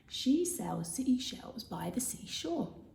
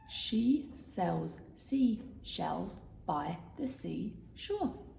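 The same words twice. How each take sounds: First: It is said at normal speed. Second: It is said slowly.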